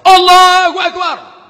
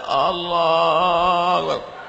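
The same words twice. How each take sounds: First: It is said loudly and strongly. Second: It is said weakly and half-heartedly.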